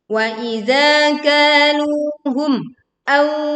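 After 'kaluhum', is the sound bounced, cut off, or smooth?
cut off. The sound breaks off after the final m. "Terjadi pemutusan suara di sini dan itu adalah keliru"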